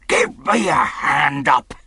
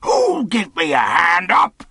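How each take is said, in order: First: Rough pirate calling out for help; pirate's cry. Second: Rough roaring demand, drawn out from the first word; pirate's roar. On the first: Silver demands help getting up, rough pirate cry. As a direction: call out crossly as an old sea dog. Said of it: "he cried". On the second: Silver unaided on the ground, roaring for a hand. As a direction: roar it as an enraged old pirate. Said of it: "he roared". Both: Acted.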